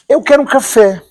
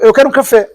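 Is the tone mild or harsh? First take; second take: mild; harsh. First: It is said in a mild, gentle tone. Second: It is said in a harsh, blunt tone. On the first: A softened retelling of the remark. "eu tô a ser muito brando no vídeo" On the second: How the remark was really delivered. "Isso foi tipo"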